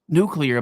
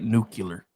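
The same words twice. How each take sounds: First: It is said the standard way, nuclear. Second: It is said the regional way, nucular. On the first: The speaker calls it right. "I said that right, right?" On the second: The speaker calls it wrong. "I used to say it like Bush forty-three said it"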